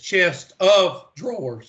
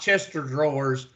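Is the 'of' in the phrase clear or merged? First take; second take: clear; merged. First: The 'of' is said clearly between both words. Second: The 'of' merges into 'chest', sounding like 'Chester'. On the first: The speaker calls it right. "it's chest of drawers" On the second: The speaker calls it wrong. "Chester drawers is not Chester drawers"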